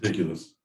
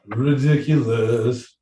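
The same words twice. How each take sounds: First: Said in the usual way. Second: RIDICULOUS stretched slowly over every syllable; drawn-out exclamation. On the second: Acted. Host reacts to the silly peacock message, slow, drawn-out "Ridiculous". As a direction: draw out "Ridiculous" with relish. Same word repeated, drawn out.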